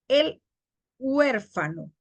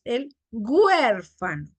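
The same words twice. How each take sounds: First: Said in the usual way. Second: "huérfano" opened with g, güérfano. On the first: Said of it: "Nosotros no decimos". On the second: Shown as a demonstration. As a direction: put a hard g on "huérfano". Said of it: "H por G".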